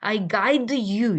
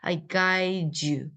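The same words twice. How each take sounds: First: The d and y are pronounced as separate sounds. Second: The d and y blend into one j-like sound. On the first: The speaker calls it wrong. "우리가 I guide you 이렇게 하는 게 아니라" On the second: The speaker calls it right. "힘들게 안 하고 I guide you"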